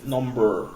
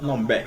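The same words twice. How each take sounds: First: "number" with a clear American r at the end; "number" finishing on an r-coloured er; right way. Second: "number" said without the final r, ending in a plain uh; "number" clipped to numbuh; wrong way. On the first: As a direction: say "number" with the r fully sounded. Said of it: "it's number". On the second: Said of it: "it's not number". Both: Shown as a demonstration.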